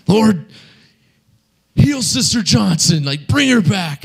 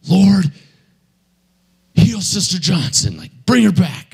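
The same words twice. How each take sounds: First: High, pleading command to heal; preacher begging God at the deathbed; fervent prayer again. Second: High, pleading command to heal; preacher begging God at the deathbed; fervent prayer. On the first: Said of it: "And he's all". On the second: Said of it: "he's all". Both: Retold or imitated. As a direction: call on the Lord, pitched high.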